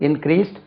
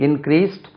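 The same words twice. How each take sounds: The two takes are said the same way.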